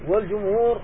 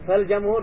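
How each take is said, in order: First: The first vowel is a rounded u. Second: The first vowel is an open a. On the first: It means the majority of scholars. The speaker calls it right. "الجمع من أهل العلم" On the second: It means soil. The speaker calls it wrong. "بالفتح التراب"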